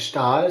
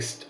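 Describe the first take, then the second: First: It starts with an sh sound. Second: It starts with a plain s sound. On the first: This is the German way of saying it. "like in Germany with like Stahl" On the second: This is the Dutch way of saying it. "like S T, like st-"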